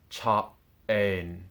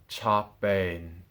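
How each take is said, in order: First: The two words are said apart. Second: The two words run together as one. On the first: The speaker calls it wrong. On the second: The speaker calls it right.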